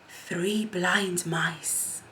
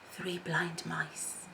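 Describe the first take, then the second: First: It is a projected, clearly audible whisper. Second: It is a faint, ordinary whisper.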